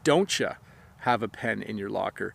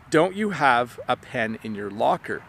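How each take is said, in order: First: The word 'you' is squished into 'ya'. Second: The word 'you' is said in full. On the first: "I'll use a reduction and I'll say" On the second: "I'll usually ask them"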